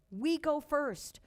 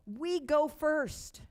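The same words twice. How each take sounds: The two takes are said the same way.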